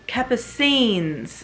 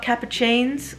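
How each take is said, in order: First: The middle has no 'ch' sound. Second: The middle has a 'ch' sound, like cappuccino. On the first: The speaker calls it right. "it's Capucines" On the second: The speaker calls it wrong. "It's not Capuchines, like cappuccino"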